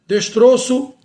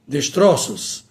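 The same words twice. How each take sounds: First: "destroço" with closed ô, pitched high. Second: "destroços" with open ó, low and falling. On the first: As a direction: say "destroço" as des-TRÔ-ço, higher. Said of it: "o O permanece com o timbre fechado". ("destroço" com ô fechado, em tom mais alto) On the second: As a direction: say "destroços" as des-TRÓ-ços. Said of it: "passa para o timbre aberto". ("destroços" com ó aberto, em tom grave) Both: Shown as a demonstration.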